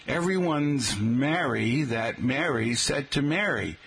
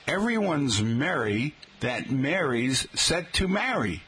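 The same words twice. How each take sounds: First: "merry", "Mary's" and "marry" all said alike, slowly; slow demo making "merry", "Mary's", "marry" identical; one "mary" vowel for "merry", "Mary's" and "marry"; merged vowels. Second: "merry", "Mary's" and "marry" each with its own vowel; "marry" with a short "a" as in cat, "merry" with "eh"; Northeastern distinct vowels. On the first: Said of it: "Would you say". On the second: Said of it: "where the words are pronounced differently". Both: Shown as a demonstration.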